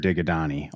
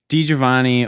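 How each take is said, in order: First: The surname is blurred into 'Digadani'. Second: The surname is said with a clear 'Giovanni' ending. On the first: Someone else said it this way. "the Filipino guy that used to call my house" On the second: This is the name's own pronunciation.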